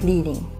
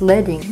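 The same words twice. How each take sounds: First: The first syllable sounds like 'leed'. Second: The first syllable sounds like the metal 'led'. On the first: The word refers to guiding or going first. The speaker calls it wrong. "not leading" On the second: The word refers to the metal lead. The speaker calls it right. "Because the strips were made from lead, the word is pronounced leading"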